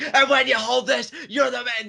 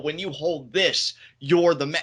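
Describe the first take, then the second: First: The voice rises and gets loud. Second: The voice stays calm and level.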